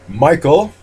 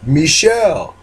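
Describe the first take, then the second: First: The name sounds like the English name Michael. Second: The name sounds like the name Michelle. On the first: "like in row your boat ashore" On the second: "like the Beatles song"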